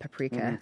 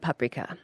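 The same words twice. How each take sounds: First: It is pronounced the English way. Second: It is pronounced the Hungarian way. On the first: "in English, always tends to become paprika" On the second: "in Hungarian, you'd call it paprika"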